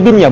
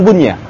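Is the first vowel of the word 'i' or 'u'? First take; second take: i; u. First: The first vowel is 'i'. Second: The first vowel is 'u'. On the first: The speaker calls it right. "bacaannya binnya" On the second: The speaker calls it wrong. "bukan bunnya"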